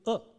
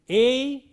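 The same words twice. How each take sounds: First: The vowel is reduced to a short schwa. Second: The vowel is full, like the letter name. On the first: "weakened into A" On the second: "A is weakened"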